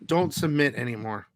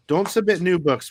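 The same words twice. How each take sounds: First: Said in the usual way. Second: "Don't submit new books" said louder, with "submit" hit hard; emphatic repeat. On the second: Real, not acted. Telling fellow comic sellers, with a firmer louder repeat. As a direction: press the warning harder the second time.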